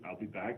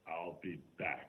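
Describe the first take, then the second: First: It is said plainly, without drama. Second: It is said in a dramatic way.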